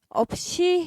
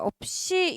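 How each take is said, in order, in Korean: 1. s 소리는 평음이고 이완되어 있습니다. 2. s 소리는 경음이고 긴장되어 있습니다.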